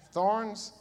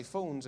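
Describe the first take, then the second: First: THORNS with a hard American R, loud and high; American pronunciation. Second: THORNS as "fawns", th as f, no R; own Essex accent. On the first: British preacher checking his American with the congregation, exaggerated R in THORNS. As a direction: say THORNS American-style, drawn-out R. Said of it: "learning how to speak American". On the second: British preacher recalling his old sermons, THORNS pronounced "fawns". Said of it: "I used to preach this". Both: Shown as a demonstration.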